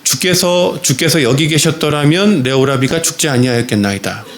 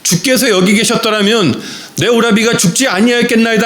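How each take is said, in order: First: Steady, formal and composed; calm, dignified. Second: Higher, pleading cry of grief; wailing, weeping. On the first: Martha addressing Jesus formally, calm and composed. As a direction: speak with respectful restraint, hiding grief. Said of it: "정중하게 이렇게 이야기합니다". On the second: Mary falling at Jesus' feet, acted weeping plea. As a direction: let the sorrow break out, mildly acted. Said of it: "펑펑 울면서 통곡하면서". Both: A narrator's reading.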